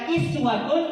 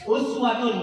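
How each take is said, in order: First: The word begins with an 'i' vowel. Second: The word begins with a 'u' vowel. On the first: "Kalau dibaca iswatun, itu nama riwayatnya" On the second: "Betul tadi dibaca begitu?"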